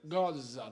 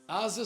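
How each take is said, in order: First: The word begins with a hard G sound. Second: The word begins with a plain vowel sound.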